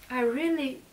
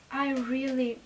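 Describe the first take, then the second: No difference in how they are said.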